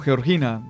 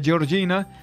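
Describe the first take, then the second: First: The name is said with a Spanish-style sound. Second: The name is said with an Italian-style sound. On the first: The speaker calls it right. "sino Georgina, está mestizada" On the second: The speaker calls it wrong. "no se pronuncia Georgina"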